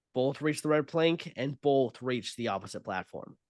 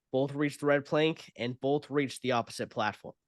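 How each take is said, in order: The two takes are said the same way.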